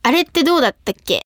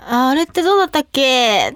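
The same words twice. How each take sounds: First: Said in the usual way. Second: Mindless echo. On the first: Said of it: "って言われたら、". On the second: Shown as a demonstration. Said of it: "ってそのまま返してる時は".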